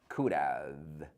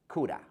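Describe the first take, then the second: First: Both words are said fully, with a v sound. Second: The words blend into 'coulda' with no v sound. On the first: The speaker calls it wrong. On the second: The speaker calls it right.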